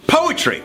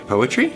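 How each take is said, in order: First: "poetry" announced high, pitch falling at the end; "poetry" popped out high like a eureka; sudden bright idea. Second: "Poetry" in usual pitch, rising at the end; "Poetry" lifted into a question; questioning echo. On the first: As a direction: pitch "poetry" as an inspired suggestion. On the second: Echoes the suggestion as a question. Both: Acted.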